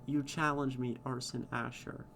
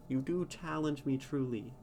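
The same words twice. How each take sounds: First: "You" leaned on, "challenge me" light; first take, weight on "You"; stress on you. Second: "do" punched, falling to "truly"; emphatic retake, "do" stressed. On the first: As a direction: hit "You" as the key word. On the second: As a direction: lean hard on "do" for emphasis. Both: Shown as a demonstration. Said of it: "reading in verse is hard".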